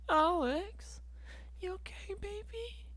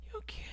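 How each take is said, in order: First: Put-on much higher, soft baby-talk coo; mock cooing. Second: Whispered, voiceless "You okay?". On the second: Pretend. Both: Cooing at himself about sad times.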